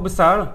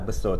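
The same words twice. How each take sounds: First: The final r is lightly sounded. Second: The word ends in an o vowel. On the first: "Kalau kita menggunakan bahasa baku, kita akan sebut besar. Besar dan R tu ada bunyi sikit" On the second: "Orang Perak mungkin akan sebut besar juga... ejaan dia B E S O"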